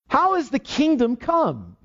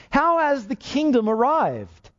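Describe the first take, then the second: First: HOW drawn out high and slow, each word weighted; preacher pressing the congregation on HOW, slow and high; slow emphatic question. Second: HOW lifted high and slowed, then falling away; preacher repeating the question, HOW lifted and slowed; emphatic question. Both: Acted. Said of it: "This should greatly help you".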